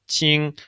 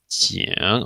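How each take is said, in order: First: The pitch stays high and level. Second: The pitch dips low, then rises. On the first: It means surprise. "in the first tone, it means like surprise" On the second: It means an alarm. "in the third tone, we have qing"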